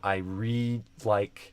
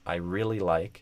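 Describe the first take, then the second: First: 'Really' is clipped to a short 're'. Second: 'Really' is said in full with both syllables. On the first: The speaker calls it wrong. "or instead of" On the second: The speaker calls it right. "it becomes"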